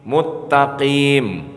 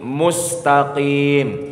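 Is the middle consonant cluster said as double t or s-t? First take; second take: double t; s-t. First: The s merges into a doubled t. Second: The middle cluster is said as s-t. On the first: The speaker calls it wrong. "orang yang mengidghamkan huruf bukan pada tempatnya" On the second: The speaker calls it right. "Ihdinas siratal mustaqim"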